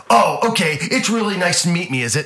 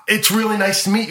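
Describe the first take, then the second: First: Loud, higher mocking repeat; imitated star's sarcastic jab; sarcastic echo. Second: Tentative politeness. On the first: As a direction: throw the greeting back with mock offence. Acted star mocking the fan's greeting. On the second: Retold or imitated. Acted nervous fan, then echoed mockingly.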